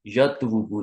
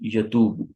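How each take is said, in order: First: The word has a w sound before a short vowel. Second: The word has a long u vowel and no w. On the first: The speaker calls it wrong. "यतवुबु नहीं" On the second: The speaker calls it right.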